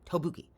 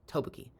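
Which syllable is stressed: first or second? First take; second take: first; first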